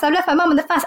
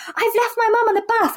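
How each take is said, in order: First: Said in the usual way. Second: Higher, urgent retold panic; blurting it out in a panic; panicked quote. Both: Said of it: "she said".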